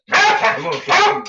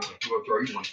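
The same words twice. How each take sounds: First: High, loud teasing call; excited call to dog. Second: Said in the usual way. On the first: Real, not acted. Owner teases dog about a treat, high loud call.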